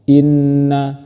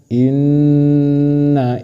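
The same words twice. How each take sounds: First: The double n is short, with no nasal hum. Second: The double n is held with a nasal hum. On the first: The speaker calls it wrong. "bukan dibaca inna, itu salah" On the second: The speaker calls it right. "Tapi yang benar inna Ibrahim"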